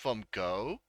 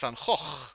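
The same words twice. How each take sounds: First: The second word sounds like 'go'. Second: The second word does not sound like 'go'. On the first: The speaker calls it wrong. "It's not Van Gogh. There's no go in the word Van Gogh" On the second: The speaker calls it right. "It's Van Gogh"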